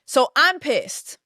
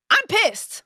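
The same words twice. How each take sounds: First: Slow angry. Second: High, sharp outburst of real anger. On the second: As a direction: let the anger spike up high on pissed. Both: Real, not acted.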